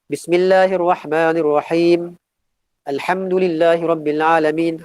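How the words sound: It stops after the first phrase.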